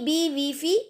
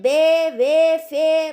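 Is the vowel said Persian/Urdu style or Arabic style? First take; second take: Arabic style; Persian/Urdu style. First: The vowels sound like Arabic. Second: The vowels sound like Persian or Urdu. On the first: The speaker calls it right. "ऐसे पढ़ेंगे" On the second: The speaker calls it wrong. "ऐसे नहीं पढ़ेंगे"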